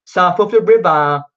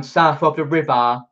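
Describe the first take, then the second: First: Hammed-up Cockney, a touch higher and louder; playing up the London Cockney twang; Cockney accent. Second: Said in the usual way. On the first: Shown as a demonstration. Viewers ask about his accent, so he hams up Cockney. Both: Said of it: "that sort of Mockney accent".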